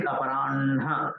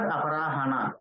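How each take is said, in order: First: Aparanha with n before a chest-breathed ha; correct pronunciation. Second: Aparahana with ha before na, as separate syllables; wrong pronunciation. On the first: Teacher corrects the wrong form, pronounced carefully. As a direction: say "aparanha", holding the n into ha. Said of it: "it is aparanha. From oras it has to come". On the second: Teacher shows students what not to say, mispronounced. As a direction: say "aparahana" quickly, h first, then n. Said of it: "it is not aparahana". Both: Shown as a demonstration.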